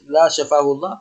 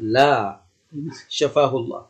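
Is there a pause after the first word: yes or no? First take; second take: no; yes. First: The words run on with no pause. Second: A short pause follows the first word. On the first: It sounds like a curse against the sick person. The speaker calls it wrong. "ما تقول لا يجيب مباشرة" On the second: It answers no, then prays for the sick person's recovery. The speaker calls it right. "لكن لو قلت لا شفاه الله تريد لا"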